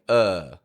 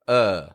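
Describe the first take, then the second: The two takes are said the same way.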